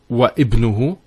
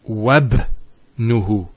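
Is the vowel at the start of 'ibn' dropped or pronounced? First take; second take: pronounced; dropped. First: A separate i sound is said after wa. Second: The wa runs straight into the b sound. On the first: The speaker calls it wrong. "It's not wa ibnuhu" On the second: The speaker calls it right. "we don't pronounce this hamza. We go straight to the ba"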